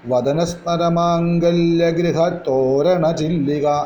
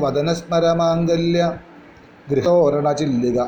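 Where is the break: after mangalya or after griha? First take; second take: after griha; after mangalya. First: The break comes right after griha. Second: The break comes right after mangalya. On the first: The face is the house, and the eyebrows are its arch. The speaker calls it right. "എന്ന് തന്നെ വേണം" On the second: The meaning of the phrase changes. The speaker calls it wrong. "അങ്ങനെ ചൊല്ലരുത്"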